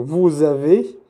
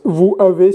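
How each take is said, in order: First: "vous avez" linked by a z sound, voo-zavay; slow teacher's model of "vous avez", s sounded as z; with liaison. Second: "vous avez" with no z sound linking the words; the wrong reading of "vous avez", a gap between vowels; without liaison. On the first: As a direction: join "vous avez" slowly with a clear z. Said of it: "Hacemos la liaison, la conexión". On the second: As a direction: say "vous avez" as two separate words, silent s. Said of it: "no es vous avez". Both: Shown as a demonstration.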